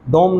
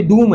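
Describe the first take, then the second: First: "डोम" with an o vowel; mispronunciation. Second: Higher "डूम" with long oo; correct pronunciation. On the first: Teacher rejecting a reading of dome, mispronunciation. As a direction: say "डोम" with o instead of oo. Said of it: "डोम नहीं है". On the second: Teacher returning to the word dome, correct pronunciation. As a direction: say "डूम" with oo, raised pitch. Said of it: "ये डूम है". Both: Shown as a demonstration.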